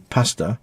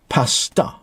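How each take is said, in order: First: The first consonant is stressed and the word flows. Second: The vowels are stressed and the word sounds clipped. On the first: "the English would say pasta. Uh, more emphasis on the P" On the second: "There's a more emphasis on the A's"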